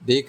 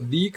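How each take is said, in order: First: The vowel is an 'e' sound. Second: The vowel is a long 'ee' sound. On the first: The speaker calls it right. "देख, रेख ही बन रहा है" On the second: The speaker calls it wrong. "अब इसको दीख नहीं पढ़ रहे हैं हम"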